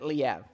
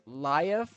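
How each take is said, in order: First: The name does not sound like life. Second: The name sounds like the word life. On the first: This pronunciation sounds fancier. "I kind of like pronouncing it Liev. It sounds more fancy that way" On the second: This is the pronunciation others say is correct. "the last name is pronounced Laev, like life"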